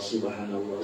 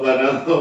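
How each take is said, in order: First: The full word is said, starting with 'sub'. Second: The word is clipped, starting with 'ban'. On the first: "kalau pertamanya itu kan subhanallah" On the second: "Subnya sudah enggak terucap"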